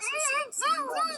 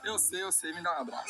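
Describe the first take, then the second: First: Much higher, playful repeat; high squeaky voice. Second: Said in the usual way. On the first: Acted.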